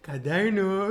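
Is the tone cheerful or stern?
cheerful. It is said in a cheerful, excited tone.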